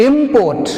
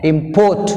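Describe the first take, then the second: First: Import as IM-port, im hit high; stress on IM. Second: Import as im-PORT, port stressed and rising. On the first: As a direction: stress the first syllable in Import. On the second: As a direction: stress the second syllable in import. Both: Shown as a demonstration.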